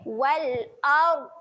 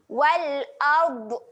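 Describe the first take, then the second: First: The final consonant is held without any release. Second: The final consonant is released with a bouncing echo. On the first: The speaker calls it right. "tarik je, tak perlu bunyikan" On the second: The speaker calls it wrong. "kalau bunyi macam tu, huruf dot tu dia dah jadi lantun"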